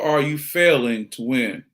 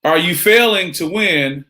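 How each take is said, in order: First: Slow "failing", then "to win" falling away; downbeat question. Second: High, slow "Are you failing to win" lifted on "failing"; rising challenge. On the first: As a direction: let "failing to win" sink slowly to a close. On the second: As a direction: stretch "failing to win" and keep it pitched up. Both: Shown as a demonstration. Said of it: "Pose it again".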